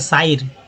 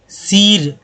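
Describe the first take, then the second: First: The vowel sounds like 'ai' as in eye. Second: The vowel sounds like a long 'ee'. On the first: "कुछ लोग करते साइर, साइर, गलत उच्चारण हो जाता" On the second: "सीर, दम नहीं होगा"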